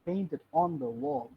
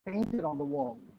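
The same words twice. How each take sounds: First: The word 'on' is said with stress. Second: The word 'on' is said without stress. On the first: "Second. Ambig money" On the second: "first অনটাকে পিরিক বানিয়ে"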